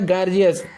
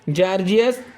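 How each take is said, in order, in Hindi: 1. यह शब्द hard g की आवाज़ से शुरू होता है। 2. यह शब्द j की आवाज़ से शुरू होता है। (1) "कुछ लोग यहाँ पर हम ग भी कर लेते हैं" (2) "यहाँ पर जी का उच्चारण हम ज कहीं कर करते हैं"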